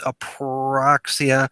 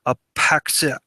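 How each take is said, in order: First: The r sound after the p is pronounced. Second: The r sound after the p is left out.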